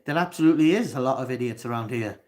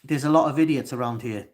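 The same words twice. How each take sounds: First: Emphatic "is", quicker repeat; stress on is. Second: Said in the usual way. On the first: Real, not acted. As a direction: push "absolutely is" hard, a bit fast.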